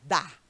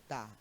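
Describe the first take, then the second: First: The word is strong, open and intense. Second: The word is weak, closed and unstressed. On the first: It is the verb form meaning gives. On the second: It is a preposition joined with an article.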